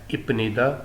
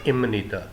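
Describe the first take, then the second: First: The consonant before 'nida' is a p sound. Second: The consonant before 'nida' is an m sound. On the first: "लिखने में तो है इपनीदा" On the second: "pronunciation इसकी है इमनीदा"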